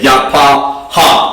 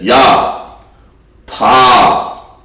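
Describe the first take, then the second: First: Three separate syllables, with the ha sounded apart. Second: Two syllables, with a short breath between them. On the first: It becomes some other word. The speaker calls it wrong. "that's totally wrong" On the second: It means beautiful. The speaker calls it right. "The pa and the ha together"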